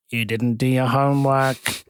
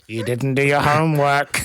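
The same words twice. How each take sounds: First: Raised voice, slowly drawn out, quoting him; slow mock shout, only a little raised; retold loud call. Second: Louder mock yell, quoting him; retold loud shout. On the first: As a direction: imitate him calling out, moderately loud. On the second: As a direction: shout it out in imitation, through amusement.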